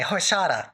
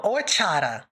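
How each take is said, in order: First: "Horchata" in an English accent, H voiced; mispronounced horchata. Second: "horchata" with a silent H, or-CHAH-ta; corrected horchata. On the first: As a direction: say "Horchata" as hor-SHAH-ta, H pronounced. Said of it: "I'm saying it wrong, aren't I?". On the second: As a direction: drop the H of "horchata" and say CH crisply. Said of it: "Or, oh". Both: Shown as a demonstration.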